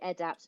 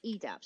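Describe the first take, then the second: First: The first syllable sounds like 'ed' in education. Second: The first syllable does not sound like 'ed'. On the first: The speaker calls it right. "making sure that we say EDAPT" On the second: The speaker calls it wrong. "not EDAPT"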